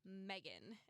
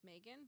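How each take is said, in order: First: The first syllable sounds like the word Meg. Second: The first syllable sounds like the month May. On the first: The speaker calls it wrong. "some people pronounce it Megan" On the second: The speaker calls it right. "to me my name is Megan"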